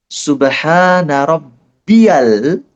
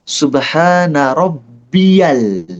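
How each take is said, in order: Both takes have the same delivery.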